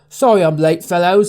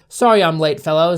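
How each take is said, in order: First: It is said in a Northern English accent. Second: It is said in the speaker's normal accent. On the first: "that's like Northern English" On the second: "I'm just gonna read normally"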